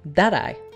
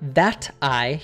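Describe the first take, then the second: First: The t in that sounds like a quick d. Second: The t in that is a clear t sound. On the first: "he says that I" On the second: "he doesn't say that I"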